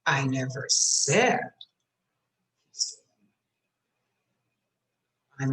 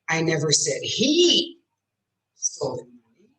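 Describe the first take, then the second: First: The word "said" is stressed. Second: The word "he" is stressed. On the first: I only implied it, not said it. "I might have implied it" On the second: A different person took it. "I said she did"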